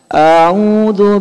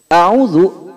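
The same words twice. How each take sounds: First: The first vowel is drawn out long. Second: The first vowel is kept short. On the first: It asks whether I seek refuge. The speaker calls it wrong. "hamzahnya terlalu panjang. ... Ini salah Pak" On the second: It states that I seek refuge. The speaker calls it right. "A'udzu artinya aku berlindung"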